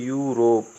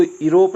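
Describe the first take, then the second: First: यूरोप starting with "yu"; taught reading. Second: यूरोप as "i-rop"; wrong reading. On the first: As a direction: open यूरोप on a y-glide, "yu-rop". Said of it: "तो इसको हम बोलते हैं यूरोप।". (यूरोप को "यू-रोप" बोलें) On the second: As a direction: start यूरोप on a plain i, no "yu". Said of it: "इसको यूरोप नहीं बोलते हैं". (यूरोप को "इरोप", गलत उच्चारण) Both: Shown as a demonstration.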